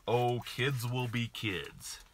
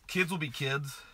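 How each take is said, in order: First: Mocking other parents. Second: Incredulous echo. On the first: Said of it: "what I hear a lot here". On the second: Real, not acted.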